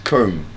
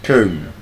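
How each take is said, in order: First: The b is silent at the end. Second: The same.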